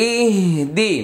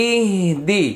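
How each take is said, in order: No difference in how they are said.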